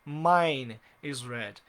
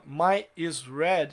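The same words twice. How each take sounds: First: Mine is red said slowly as the right form; stretched, careful right version; slow correct example. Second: My is red said slowly as the wrong form; stretched, deliberate wrong version; slow wrong example. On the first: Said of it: "Então uso mine". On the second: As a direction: spell out the mistake "My is red" slowly. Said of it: "está errado". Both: Shown as a demonstration.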